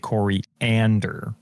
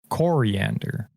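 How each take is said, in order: First: The stress falls on a later syllable. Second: The stress falls on the first syllable. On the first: "I say coriander, and I sound like an idiot" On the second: "She emphasizes the O"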